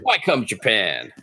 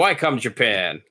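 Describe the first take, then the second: First: It is said in a Better Call Saul voice. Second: It is said in a plain, normal voice.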